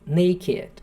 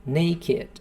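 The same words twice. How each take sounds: Both takes have the same delivery.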